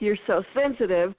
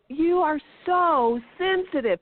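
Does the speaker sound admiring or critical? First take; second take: critical; admiring. First: It sounds critical and dismissive. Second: It sounds warm and admiring. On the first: Being sensitive is a flaw. The speaker calls it wrong. "Instead of, oh" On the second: Being sensitive is a strength. The speaker calls it right. "totally different inflection with the same words has a whole other meaning"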